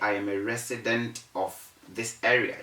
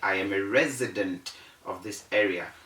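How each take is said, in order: First: The consonant in resident is a voiceless S sound. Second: The consonant in resident is a voiced Z sound. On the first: The speaker calls it wrong. "Don't say" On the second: The speaker calls it right. "You say"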